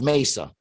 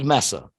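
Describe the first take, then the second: First: The first vowel sounds like in 'may'. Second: The first vowel sounds like in 'mess'. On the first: This is how the word is actually said. "it's pronounced Mesa" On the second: This is how the spelling suggests it should be said. "It should be Mesa"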